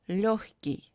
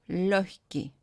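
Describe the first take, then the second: No difference in how they are said.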